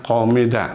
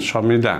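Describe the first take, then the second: First: The word begins with a k sound. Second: The word begins with an s sound. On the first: The speaker calls it right. "Bacanya comida" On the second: The speaker calls it wrong. "bukan somida"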